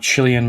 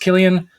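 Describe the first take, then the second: First: The name begins with a soft, non-K sound. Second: The name begins with a hard K sound. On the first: The speaker calls it wrong. "not to be confused with Cillian" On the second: The speaker calls it right. "it is pronounced Killian"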